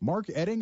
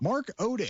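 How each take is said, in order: First: The surname starts with an 'eh' vowel. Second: The surname starts with an 'oh' vowel. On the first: The speaker calls it right. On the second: The speaker calls it wrong.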